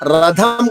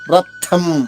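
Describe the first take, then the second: First: The middle consonant is a voiced aspirated dha. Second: The middle consonant is a voiceless aspirated tha. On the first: The speaker calls it wrong. "రథం కాదు" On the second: The speaker calls it right. "థాలాగే పలకాలి"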